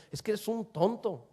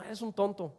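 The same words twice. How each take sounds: First: Firm, emphatic put-down without shouting; mean it as a real insult; restrained but pointed jab; forceful insult. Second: Light, soft jokey jab; mild playful ribbing; playful teasing. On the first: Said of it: "decirle de una manera fuerte". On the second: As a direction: toss it off as a harmless tease. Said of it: "está jugando y a lo mejor no lo quiere insultar". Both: Shown as a demonstration.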